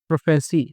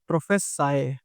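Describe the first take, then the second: First: The word ends with an 'ee' sound. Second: The word ends with an 'eye' sound. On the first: It is used as a noun. "Noun में तो उसको क्या बोलते हैं हम? प्रोफेसी ही बोलते हैं।" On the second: It is used as a verb. "लेकिन जब वर्ब की बात आती है तो उसको हम प्रोफेसाए बोल देते हैं।"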